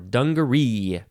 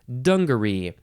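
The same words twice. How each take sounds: First: The stress is on the last syllable. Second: The stress is on the first syllable. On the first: "or the last syllable" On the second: "you can emphasize the first syllable"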